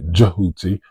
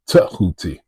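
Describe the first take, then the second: First: The name begins with a 'j' sound. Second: The name begins with a 't' sound.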